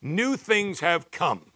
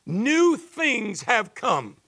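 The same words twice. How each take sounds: First: Each word slowly and deliberately; slow emphatic quote. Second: Slow, higher and louder, every word weighted; emphatic proclamation. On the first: Pastor reading the verse to his church, slow and deliberate. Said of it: "I love the N A S B where it says". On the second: Preacher proclaiming the verse to the congregation, slow and raised. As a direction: ring it out slowly as a declaration. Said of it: "Everything has started to change". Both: Shown as a demonstration.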